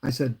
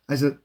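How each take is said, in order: Both takes have the same delivery.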